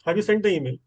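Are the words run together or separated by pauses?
run together. The words run together without pauses. This is how people usually say it. "इस तरह से बोलते हैं"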